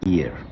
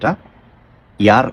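First: The opening 'ee' glide is strong. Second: The opening 'ee' glide is weak. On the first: The speaker calls it right. "ই এর উচ্চারণটা অনেক strongly" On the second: The speaker calls it wrong. "এটা ইয়ার অনেকেই আমরা বলি"

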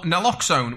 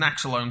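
First: The second syllable begins with an L sound. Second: The second syllable begins with an X sound. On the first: The speaker calls it right. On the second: The speaker calls it wrong.

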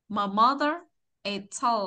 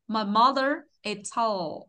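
Both takes have the same delivery.

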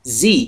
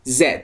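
First: The letter is said the American way, as 'zee'. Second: The letter is said the British way, as 'zed'.

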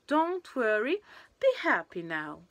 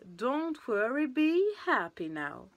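First: There is a short pause after worry. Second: It runs on with no pause after worry. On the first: "il y a une petite césure" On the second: "c'était tout attaché"

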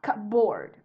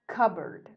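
First: The second part is said fully, like board. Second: The second part is reduced, not said like board. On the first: The speaker calls it wrong. "And it's not cupboard" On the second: The speaker calls it right. "the sound at the end is not exactly as you see it"

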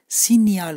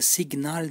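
First: The middle is said with a ny sound. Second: The middle is said with a hard g sound. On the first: The speaker calls it right. "Sinyal okunuyor. Sanki Y sesi varmış gibi" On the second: The speaker calls it wrong. "Burada da signal diye okunmuyor"

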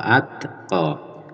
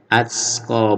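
First: The t is released with only a puff of breath. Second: The t is released with an s-like hiss. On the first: The speaker calls it right. "tapi atqa cukup ada udara yang keluar ya" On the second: The speaker calls it wrong. "jadi jangan sampai keluar huruf s ya. Atqa bukan begitu"

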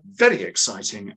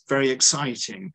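First: It is said with lively, excited energy. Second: It is said flatly, without excitement. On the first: The speaker calls it right. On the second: The speaker calls it wrong.

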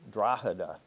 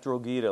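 First: It is pronounced the way locals say it. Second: It is pronounced as it is in the film. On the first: The speaker calls it right. "but Drogheda. Took me a while to learn that one" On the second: The speaker calls it wrong. "Not Drogheda, like they say in the Thornbirds"

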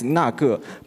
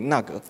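First: The word is said at a normal, careful pace. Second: The word is said very quickly and reduced. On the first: "Sometimes if the that is 那个" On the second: "If we say that really quick"

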